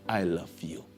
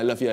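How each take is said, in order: First: It is said sincerely and wholeheartedly. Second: It is said casually and dismissively.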